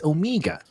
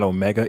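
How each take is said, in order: First: Omega in a put-on accent, middle as MEE; higher, softer accented Omega, "oh-MEE-ga"; attempted character accent. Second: Said in the usual way. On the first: Shown as a demonstration. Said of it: "I can't do the accent". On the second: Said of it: "it's not Omega".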